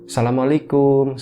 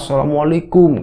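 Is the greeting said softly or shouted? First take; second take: softly; shouted. First: It is said in a soft, gentle voice. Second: It is shouted loudly and harshly.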